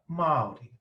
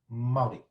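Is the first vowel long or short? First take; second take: long; short. First: The first vowel is long. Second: The first vowel is short. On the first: The speaker calls it right. "it's got to be a bit longer because it's got a macron on it" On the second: The speaker calls it wrong. "If it didn't have a macron, it would sound quite different"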